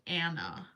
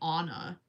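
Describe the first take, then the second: First: The first vowel is a short 'a' as in cat. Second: The first vowel is an open 'ah' sound. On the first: This is how the name is really said. The speaker calls it right. "instead of" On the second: This is how others now say the name. The speaker calls it wrong. "the Frozen movie ruined my life because now everybody calls me"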